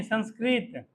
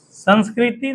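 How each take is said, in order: First: Saying संस्कृत with no final vowel, ending on t; संस्कृत, closing crisply on the त; the right take संस्कृत after the correction; correct word. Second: Saying संस्कृति with the final i sound, the form to avoid; संस्कृति, ending on a clear ि vowel; the wrong take संस्कृति spoken as a warning; wrong word named. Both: Shown as a demonstration. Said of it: "संस्कृति नहीं".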